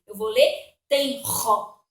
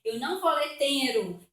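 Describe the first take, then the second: First: "tenro" with a strong throaty R, slowly; "tenro" with a hard guttural R; "tenro" with the R pushed out from the throat. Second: "tenro" said wrongly with a light tapped R; "tenro" wrongly read with a tap. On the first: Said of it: "o N não tira a força do R". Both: Shown as a demonstration.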